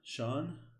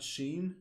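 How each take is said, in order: First: The name is said with an aw vowel. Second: The name is said with an ee vowel. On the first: The speaker calls it right. "That's how you say it" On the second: The speaker calls it wrong. "not Sheen"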